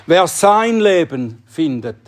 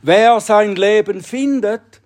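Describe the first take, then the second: First: "sein" stressed in "Wer sein Leben findet". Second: Said in the usual way. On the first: Shown as a demonstration. Preacher rereads the verse for the congregation, "sein" stressed. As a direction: push the word "sein", not "Wer". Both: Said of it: "die Betonung in diesem Satz ist auf sein Leben".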